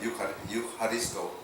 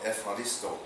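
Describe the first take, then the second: First: The word begins with a 'yoo' sound. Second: The word begins with an 'ef' sound. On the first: This follows the spelling rather than Greek speech. "instead of" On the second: This is how Greek speakers say it. "The F is E U, they pronounce it F"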